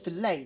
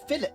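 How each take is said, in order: First: The word is said in the American way. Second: The word is said in the British way. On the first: "says filet like the Yanks" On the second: "I've always said it fillet, like you would with a fillet in any other context"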